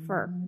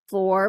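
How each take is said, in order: First: The word is said weakly with a schwa. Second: The word is said fully with a clear vowel.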